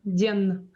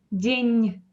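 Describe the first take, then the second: First: День ending on a plain hard n; hard final n. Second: День drawn out, ending on a softened n; soft final n. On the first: Teacher showing students the wrong день, hard final n. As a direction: say день with the n left unsoftened. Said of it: "We don't say день". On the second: Teacher showing students how we say день, slow with soft n. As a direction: end день on a palatalized n, tongue raised. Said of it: "It is soft". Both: Shown as a demonstration.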